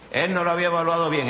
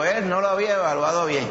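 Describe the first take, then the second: First: Quick, brisk restatement of no lo había evaluado bien; fast pointed repeat. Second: Said in the usual way. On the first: Shown as a demonstration. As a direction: rattle it off quickly for emphasis.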